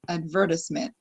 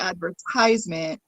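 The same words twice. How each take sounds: First: It is said the British way. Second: It is said the American way. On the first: "where you would say advertisement" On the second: "I say advertisement"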